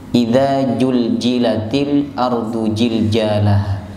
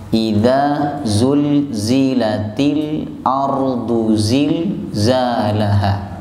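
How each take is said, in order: First: The letter is pronounced as a 'j' sound. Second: The letter is pronounced as a clear 'z' sound. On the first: The speaker calls it wrong. "Kalau ndak fasih biasanya dibaca j" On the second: The speaker calls it right. "Itu nanti kelihatan panjenengan fasih napa boten"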